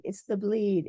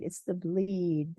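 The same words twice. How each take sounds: First: Said in the usual way. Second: "It's the bleed" slowed right down, each word weighted; slow emphasis. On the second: Shown as a demonstration. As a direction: drag out "It's the bleed" to drive it home.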